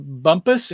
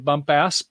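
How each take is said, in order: First: The last syllable sounds like 'pus'. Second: The last syllable sounds like 'pass'. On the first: "it might be pronounced Bumpus" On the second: "some people might want to say Bumpass"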